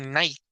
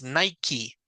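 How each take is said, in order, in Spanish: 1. La e final es muda. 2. La e final se pronuncia. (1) "la gente le dice Nike" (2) "la pronunciación de esta palabra es Nike. Eh, sí suena"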